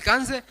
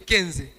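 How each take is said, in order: First: The first vowel is an 'a' sound. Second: The first vowel is an 'e' sound. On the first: The speaker calls it right. "je m'appelle Kanze" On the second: The speaker calls it wrong. "donc il m'appelait Kenze"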